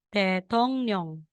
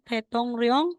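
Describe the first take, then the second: First: The last syllable begins with an N sound. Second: The last syllable begins with an R sound. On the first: The speaker calls it right. "magiging tetong nyong" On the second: The speaker calls it wrong. "instead na sasabihin mong tetong ryong"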